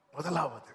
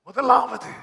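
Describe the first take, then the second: First: Said in the usual way. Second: முதலாவது called out loud and high; emphatic first. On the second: Shown as a demonstration. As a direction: proclaim முதலாவது with force.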